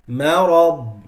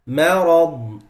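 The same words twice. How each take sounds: Both takes have the same delivery.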